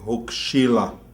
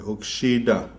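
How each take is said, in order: First: The word is said with an L sound. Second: The word is said with a D sound.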